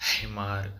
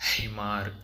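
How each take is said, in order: No difference in how they are said.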